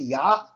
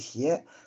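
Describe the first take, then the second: First: The final word is pronounced ya. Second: The final word is pronounced xie. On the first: This is the ancient reading, which rhymes. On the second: This is the modern reading, which does not rhyme.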